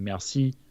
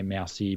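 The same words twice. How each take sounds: First: It is said with a French accent. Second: It is said with an Australian accent. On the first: This is the correct way to say it. The speaker calls it right. "I should be saying merci" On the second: The speaker can't be bothered to say it properly. The speaker calls it wrong. "I'm going to say merci because it's boring"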